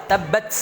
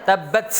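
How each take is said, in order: Both takes have the same delivery.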